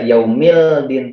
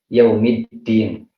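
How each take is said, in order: First: The l sound is pronounced before the d. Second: The l merges into a doubled d sound. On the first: The speaker calls it wrong. "Kita tidak membaca yaumildin" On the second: The speaker calls it right. "langsung melebur ke dal"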